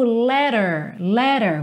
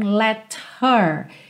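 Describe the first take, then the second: First: The h in her is dropped. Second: The h in her is pronounced. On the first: "Olha de novo" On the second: "Você não tem let her"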